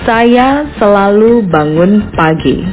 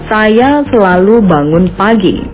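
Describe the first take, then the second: First: The sentence is spoken slowly. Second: The sentence is spoken at normal speed.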